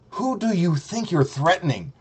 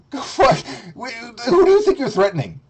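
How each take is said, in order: First: Said in the usual way. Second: Higher, outraged challenge; mock indignant. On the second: Taunting the rival streamer, high outraged challenge. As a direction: throw the question back at him.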